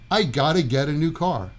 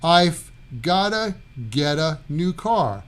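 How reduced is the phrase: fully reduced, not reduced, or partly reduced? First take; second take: fully reduced; partly reduced. First: The sounds are squeezed together completely. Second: The V softens to F; 'got to' blends. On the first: "completely squeezing those sounds together" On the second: "the V morphs into an F sound"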